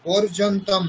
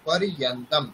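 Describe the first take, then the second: First: The cluster is said with a 'j' sound. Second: The cluster is said with a 'y' glide. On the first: The speaker calls it wrong. "পর্যন্তম নয়" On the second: The speaker calls it right. "ইয়া উচ্চারণ করতে হবে"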